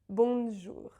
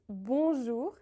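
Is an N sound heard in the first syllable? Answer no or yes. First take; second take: yes; no. First: An N sound is heard after the first vowel. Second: The first vowel is nasal with no N sound. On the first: The speaker calls it wrong. "and not bonjour" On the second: The speaker calls it right. "It's bonjour"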